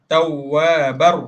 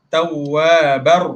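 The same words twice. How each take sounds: Both takes have the same delivery.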